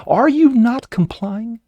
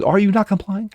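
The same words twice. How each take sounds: First: Much higher, slower, drawn-out demand; mock officer, escalating. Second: Higher, pushy questioning cop voice; mock officer demand. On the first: Host mimics the officer repeating the demand, slower and much higher. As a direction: stretch it out like a bullying cop. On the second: Ranting host voices the officer questioning the airman, pushy and higher. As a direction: play the officer pressing him. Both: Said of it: "he goes".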